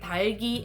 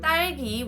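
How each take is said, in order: First: The first consonant is a plain, lax d. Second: The first consonant is a tense, doubled d. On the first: The speaker calls it wrong. "I would say 달기 instead of 딸기" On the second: The speaker calls it right. "which is a correct pronunciation, has a 쌍디귿"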